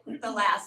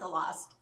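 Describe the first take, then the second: First: The vowel is the open 'a' sound. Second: The vowel is the rounded 'o' sound. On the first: The speaker calls it right. "I had to get my vowel right. The last" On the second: The speaker calls it wrong. "not the lost"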